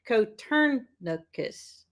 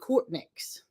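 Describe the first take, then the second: First: It is said with more syllables, 'Coturnix'. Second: It is said as two syllables, 'Cortnix'. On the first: The speaker calls it right. "but it's Cotorn, Coturnicus" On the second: The speaker calls it wrong. "I always said Cortnix"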